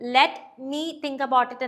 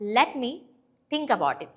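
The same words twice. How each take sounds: First: Let and me are said as separate words. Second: Let and me run together as one unit. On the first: The speaker calls it wrong. "എന്നല്ല" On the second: The speaker calls it right. "ഈ ലെറ്റ് മീ എന്നുള്ളത് ഒരുമിച്ച് പറയാം"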